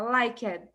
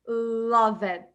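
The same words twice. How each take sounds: First: "Like it" com o D quase mudo no final; "Like it" com o D bem sutil nos dentes de cima. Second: "Love it" com um som de I no final, sem o D; "Love it" dito errado, sem o D. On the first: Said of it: "nos dentes da, de cima". ("Like it" com D final bem sutil) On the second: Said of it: "A gente não pode falar love it". ("Love it" pronunciado errado, sem o D final) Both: Shown as a demonstration.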